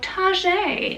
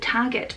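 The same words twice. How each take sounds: First: The word is pronounced in a fancy, posh way. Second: The word is pronounced in a plain, ordinary way.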